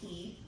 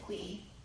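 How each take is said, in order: First: The name begins with a plain k sound. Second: The name begins with a kw sound. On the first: This is how the speaker says it. "I always say Key" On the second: This is how the game's creator says it. "Mister Dave said Quee"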